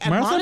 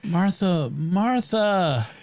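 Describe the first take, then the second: First: It sounds scolding and admonishing. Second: It sounds gentle, tender and loving.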